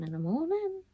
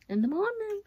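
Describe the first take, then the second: First: Said in the usual way. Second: Suddenly much higher, squeaky repeat; voice jumps up. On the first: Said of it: "Why did my voice go up". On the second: Real, not acted. Vlogger repeating herself to camera, voice shooting up high. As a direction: echo it with the voice leaping up high. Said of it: "Why did my voice go up when I spoke?".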